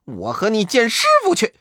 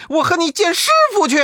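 First: High, fast monkey challenge; daring the rival to come along; quick high taunt; brash Monkey King. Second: Much higher, very fast squeaky monkey voice; the rival echoing back, shriller; rapid high-pitched echo; second Monkey King, higher. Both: Acted. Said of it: "口中不住地说".

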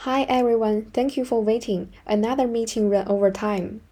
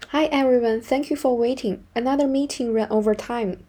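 The two takes are said the same way.

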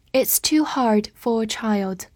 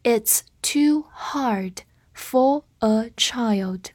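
First: Said in the usual way. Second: Very slow, spaced-out words; slow read-through. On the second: Shown as a demonstration. Teacher modelling "for a child" for learners, slow read-through. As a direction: read slowly, pausing after every word. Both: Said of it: "我们慢读一遍".

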